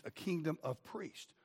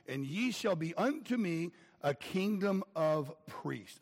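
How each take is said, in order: First: "kingdom" repeated softer and slowly; soft echo. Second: "unto" stressed in a slow, measured reading; slow scripture reading. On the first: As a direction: let the phrase echo back quietly. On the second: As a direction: read the verse slowly and solemnly, leaning on "unto". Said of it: "he says". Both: Shown as a demonstration.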